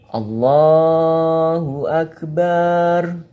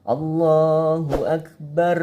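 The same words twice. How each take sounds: First: The vowel of the last syllable is drawn out. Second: The final trilled r is drawn out too long. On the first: "Allahu Akbar dibaca panjang" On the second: "suara getaran ro-nya ini juga nggak boleh terlalu panjang"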